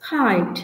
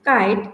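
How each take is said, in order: First: The first consonant has a puff of air. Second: The first consonant has no puff of air. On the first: "উচ্চারণটা যদি আমি বলি তাহলে হবে" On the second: "আমি লিখছি এখানে"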